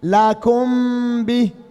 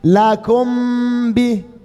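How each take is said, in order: No difference in how they are said.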